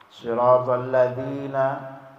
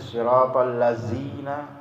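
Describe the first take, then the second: First: The word has a 'dh' sound, like 'this'. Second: The word has a buzzing 'z' sound instead. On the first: The speaker calls it right. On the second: The speaker calls it wrong.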